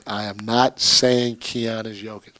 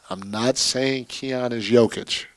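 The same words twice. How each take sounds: First: "am not" spelled out with a loud stress on "not"; emphatic disclaimer. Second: Said in the usual way. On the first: Real, not acted. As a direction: hit "not" hard to head off misunderstanding.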